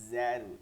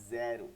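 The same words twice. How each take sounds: Both takes have the same delivery.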